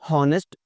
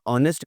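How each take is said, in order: First: The initial h sound is pronounced. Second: The initial h sound is silent. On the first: The speaker calls it wrong. "हॉनेस्ट नहीं कहा होगा" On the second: The speaker calls it right. "ऑनेस्ट कहा होगा यकीनन आपने"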